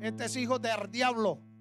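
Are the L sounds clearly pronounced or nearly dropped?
dropped. The L sounds are nearly dropped.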